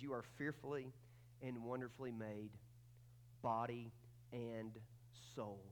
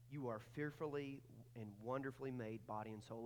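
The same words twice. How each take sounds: First: "fearfully" and "wonderfully made" spaced out with pauses, slow and lower; slow emphatic declaration. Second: Said in the usual way. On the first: Shown as a demonstration. Pastor announcing the big truth to the church, slow and weighty. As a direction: lay out each word of the truth slowly, "body and" held apart, "soul" set down low and soft. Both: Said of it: "And here it is".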